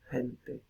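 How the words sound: The first consonant is a light breathy h.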